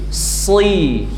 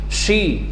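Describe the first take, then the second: First: It starts with a thick, heavy s sound. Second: It starts with a sh sound. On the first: The speaker calls it right. "huruf sod" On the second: The speaker calls it wrong. "jangan shi"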